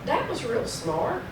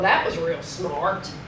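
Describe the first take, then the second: First: The tone sounds sincere and approving. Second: The tone sounds sarcastic and mocking. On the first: It is meant as praise. "that sounds pretty positive" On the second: It is meant as a put-down. "Same words, different tone, totally changes the meaning"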